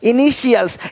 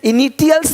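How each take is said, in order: First: The middle consonant is a 'sh' sound. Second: The middle consonant is a 't' sound. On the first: The speaker calls it right. "इनिशियल्स इनिशियल्स इनिशियल्स" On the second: The speaker calls it wrong. "इनिटियल्स नहीं बोलते"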